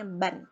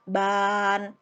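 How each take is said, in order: First: The vowel is said short and clipped. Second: The vowel is drawn out long. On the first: The speaker calls it right. "Pendek aja ya" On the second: The speaker calls it wrong. "jangan ban. Itu lain"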